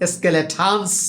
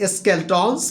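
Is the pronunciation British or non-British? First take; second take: British; non-British. First: It is said with a British accent. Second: It is said without a British accent. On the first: "এর British pronunciation হচ্ছে" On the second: "আমরা প্রায় উচ্চারণ করে থাকি"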